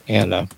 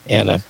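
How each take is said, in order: The two takes are said the same way.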